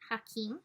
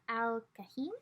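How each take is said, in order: First: The name is said as Hakim, h first. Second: The name is said as Kahim, k first. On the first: The speaker calls it right. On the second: The speaker calls it wrong.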